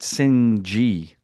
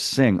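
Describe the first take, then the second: First: The word ends with an added hard g sound. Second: The word ends in ng with no g. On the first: This is how the film says the name. "They pronounce it Singh G" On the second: This is how the speaker always said the name. "I thought it was Sing"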